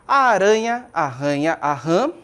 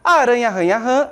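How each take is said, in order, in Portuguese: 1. É lida devagar, com pausas. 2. É lida rápido, sem pausas. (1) "foi uma forma pausada... um pouco mais devagar" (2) "ler esses versos agilmente, ou seja, de forma rápida"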